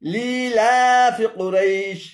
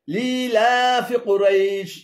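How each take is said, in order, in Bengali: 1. 'fi' অংশটি কুরাইশের সাথে যুক্ত। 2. 'fi' অংশটি কুরাইশের সাথে যুক্ত।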